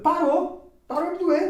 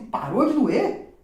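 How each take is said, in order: First: High, loud, emphatic retold answer; amazed confirmation. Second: Slow, high, loud retold question; astonished question. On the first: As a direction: confirm it excitedly, acting out the healed man. Acts the man's amazed answer. (confirmação empolgada, alta e aguda) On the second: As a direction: ask it in drawn-out disbelief, rising at the end. Retells his astonished question. (pergunta incrédula, lenta e aguda)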